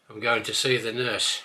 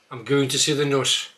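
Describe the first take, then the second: First: Said in the usual way. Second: I'm going to see the nurse with a short nuss vowel. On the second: Shown as a demonstration. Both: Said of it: "start with a few words".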